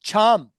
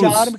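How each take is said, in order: First: The first sound has a strong puff of air. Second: The first sound is plain, without aspiration. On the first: The speaker calls it right. "सी एच की आवाज छे" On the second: The speaker calls it wrong. "चार्म की बजाय"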